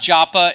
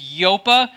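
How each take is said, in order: First: The name begins with a J sound. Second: The name begins with a Y sound. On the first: The speaker calls it wrong. "It was not Joppa" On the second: The speaker calls it right. "it was Yopa"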